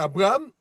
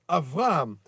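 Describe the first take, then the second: First: The second consonant is a b sound. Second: The second consonant is a v sound. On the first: This is the familiar French form of the name. "nous, on va prononcer Abraham" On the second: This is the original Hebrew form of the name. "mais c'est Av Avraham. Ce sera un vet"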